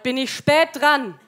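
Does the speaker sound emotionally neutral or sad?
neutral. It is said flatly, with no emotion. "Sehr emotionsneutral"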